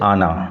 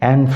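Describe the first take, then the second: First: It is said the French way, with an open 'ah'. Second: It is said the English way, like 'an'. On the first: "ফরাসি ভাষায় এটার উচ্চারণ হচ্ছে আনা" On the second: "ইংরেজি পড়ছি, তাই আমরা উচ্চারণ করব অ্যান"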